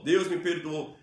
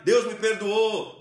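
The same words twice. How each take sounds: First: Said in the usual way. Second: Loud, high, slow "Deus me perdoou"; raised declaration. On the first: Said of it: "A tua palavra não pode ser reta". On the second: Shown as a demonstration. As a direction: punch "Deus" and proclaim it. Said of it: "levantar sua voz e declarar".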